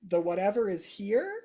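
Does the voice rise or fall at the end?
rise. The voice rises at the end, like a question.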